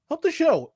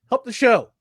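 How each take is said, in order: First: Much higher, pleading repeat. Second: Said in the usual way. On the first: Acted. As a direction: beg in a high voice.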